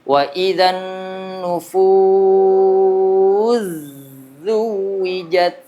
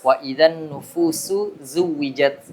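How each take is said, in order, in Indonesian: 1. Bunyi s langsung melebur ke z. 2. Bunyi s tetap dibaca sebelum z.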